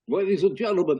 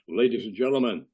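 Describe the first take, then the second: First: It is said in a plain everyday voice. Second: It is said in a heavy announcer voice.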